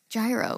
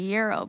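First: It begins with a 'j' sound. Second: It begins with a 'y' sound. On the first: "gyro is just how we say it" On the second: "now I feel like I should say euro"

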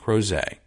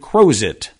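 First: The name keeps its French-style pronunciation. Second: The name is said in an Americanized way. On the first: "You want to pronounce it like it's fine" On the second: "would have had over time turned into Crozet"

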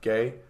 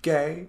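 First: It is said flat and dry. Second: It is said in a campy, animated way.

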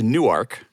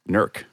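First: It is said the Delaware way. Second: It is said the Ohio Appalachian way.

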